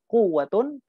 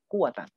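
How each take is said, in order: First: The word ends in -un. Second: The word ends in -an. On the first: The noun is read in the nominative case. "atau dibaca rafa" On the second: The noun is read in the accusative case. "atau dibaca nasab"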